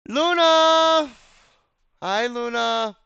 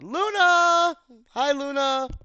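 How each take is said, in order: First: It is said with less energy. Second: It is said with more energy.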